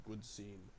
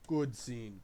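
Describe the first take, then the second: First: Much softer, almost to himself; hushed afterthought echo; quiet aside. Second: Said in the usual way. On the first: Shown as a demonstration. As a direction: drop it to a murmured echo. Soft repeat of the praise.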